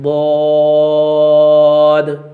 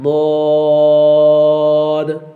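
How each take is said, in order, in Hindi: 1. यह अक्षर भारी और भरा हुआ बोला जाता है। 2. यह अक्षर भारी और भरा हुआ बोला जाता है।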